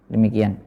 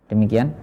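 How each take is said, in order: The two takes are said the same way.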